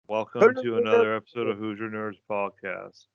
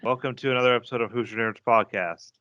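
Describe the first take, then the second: First: It is said very slowly. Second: It is said at normal speed.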